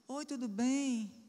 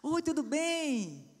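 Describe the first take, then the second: First: The greeting sounds flat and unenthusiastic. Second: The greeting sounds smiling and cheerful.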